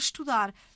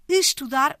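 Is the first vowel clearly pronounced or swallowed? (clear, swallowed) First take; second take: swallowed; clear. First: The initial vowel is swallowed by the consonant. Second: The initial vowel is clearly pronounced. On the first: "engolida pela consoante seguinte" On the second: "articulada com algum destaque fonético"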